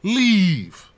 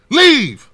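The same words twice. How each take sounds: First: Said in the usual way. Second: Leave. higher and much louder, a sharp command. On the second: Shown as a demonstration. Vlogger ordering rich celebrities out, loud Leave. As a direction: repeat Leave. as a forceful order. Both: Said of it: "One word".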